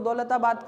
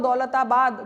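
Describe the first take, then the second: First: The word is said quickly and squeezed short. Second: The word is stretched out broadly and expansively. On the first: The speaker calls it wrong. "तुम उसको दौलताबाद कर रहे हो" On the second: The speaker calls it right. "Daulatabad यहाँ तक फैला हुआ है"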